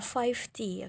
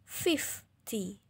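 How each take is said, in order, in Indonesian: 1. Suku kata pertama adalah "five" panjang. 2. Suku kata pertama adalah "fif" pendek. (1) "Bukan five T" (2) "Tapi kalau lima puluh, fifty"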